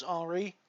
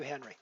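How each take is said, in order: First: Henri said the French way, silent H; French pronunciation of Henri. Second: Henry said the English way, H sounded; English pronunciation of Henry. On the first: Streamer showing a French guy's name, Henri said the French way. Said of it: "if you're a French guy and your name is Henri". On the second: Streamer showing what not to call a Frenchman, Henry said the English way. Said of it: "I should not be calling you Henry". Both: Shown as a demonstration.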